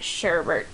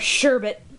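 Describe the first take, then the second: First: The second syllable has an r sound. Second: The second syllable has no r sound. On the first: The speaker calls it right. "There's an R in that word" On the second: The speaker calls it wrong. "as my dad says"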